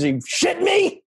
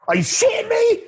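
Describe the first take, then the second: First: High put-on bro voice, outraged; mock outraged bro. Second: Outraged shout. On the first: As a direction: squeal it like an outraged rich bro. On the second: Pretend. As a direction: scream it at the top of your range. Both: Mocking rich Hamptons guy.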